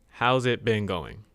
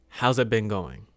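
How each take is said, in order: Both takes have the same delivery.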